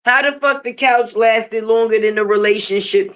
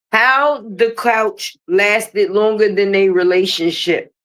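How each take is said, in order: First: Said in the usual way. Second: "How the couch lasted longer than a relationship" said slowly, each word weighted; slow down and lean on "couch" and "relationship"; slow emphatic restatement. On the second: Shown as a demonstration. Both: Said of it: "Make that part make sense".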